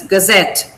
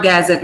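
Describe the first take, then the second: First: "gazette" with short ga, stressed ZET; correct final stress. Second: "gazette" as GAZ-et, first syllable strong; wrongly stressed first syllable. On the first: Teacher confirming the word for students, "gazette" stressed on ZET. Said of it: "This is gazette". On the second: Teacher rejecting a student's attempt, "gazette" stressed on GAZ. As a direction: punch GAZ and weaken the end of "gazette". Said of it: "Not gazette". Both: Shown as a demonstration.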